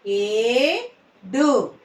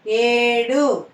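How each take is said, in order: First: "ఏడు" split, long rising ఏ, then డు; "ఏడు" in two separate syllables. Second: Said in the usual way. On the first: Shown as a demonstration. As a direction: slowly sound out "ఏడు" with a gap. Teacher sounds out syllables.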